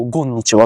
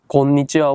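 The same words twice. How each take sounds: First: こんにちは said as ゴンにちは, g for k; Korean-accented mispronunciation. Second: Said in the usual way. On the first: Shown as a demonstration. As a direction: open こんにちは with a voiced "gon". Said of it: "ゴンって言ったり". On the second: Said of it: "ゴンにちはって".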